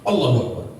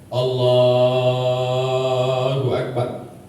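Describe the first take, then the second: First: The phrase is said short and quick. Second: The phrase is drawn out long.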